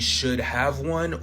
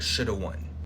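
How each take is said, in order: First: The word 'have' is said in full. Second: The word 'have' is reduced to a vowel.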